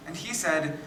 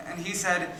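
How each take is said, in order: Both takes have the same delivery.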